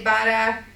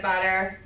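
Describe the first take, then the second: First: "butter" ending in an open "ah"; dropped final R. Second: Said in the usual way. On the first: Shown as a demonstration. Teacher showing local sound substitution, "butter" without the R. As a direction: say "butter" as "buttah", Massachusetts style. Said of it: "say butter instead of butter". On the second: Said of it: "instead of butter".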